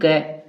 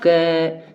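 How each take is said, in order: First: The syllable is said short and clipped. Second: The syllable is drawn out, ending in a held vowel. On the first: "short में क बोला" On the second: "अगर मैं इसका लंबा समय तक उच्चारण करूं"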